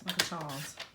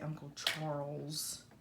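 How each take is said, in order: First: The R in Charles is dropped. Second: The R in Charles is clearly pronounced. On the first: The speaker is family from the South. "We have always said Charles, there's no R in it" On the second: The speaker is not family or is from another region. "I guess you would say Uncle Charles"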